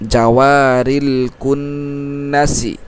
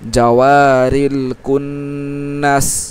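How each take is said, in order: First: The last word ends with a short i vowel. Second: The last word ends on the s consonant. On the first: The reading continues without stopping. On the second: The reader stops at this word.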